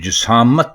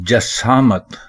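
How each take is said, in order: First: The first vowel is an 'i' sound. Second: The first vowel is an 'a' sound. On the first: The speaker calls it wrong. "जिसामत गलत है" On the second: The speaker calls it right. "जसामत दुरुस्त है"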